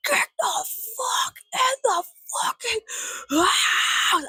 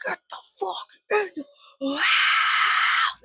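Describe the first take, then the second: First: High, raspy scream, slow and broken up; strained high shriek opening up on the last word; mock neighbor screech. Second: High, raspy screech with a long held last word; very slow, shrieked metal-style imitation; mock death metal scream. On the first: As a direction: imitate a neighbor screeching from the yard. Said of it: "my neighbor goes". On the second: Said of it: "a good little death metal remix".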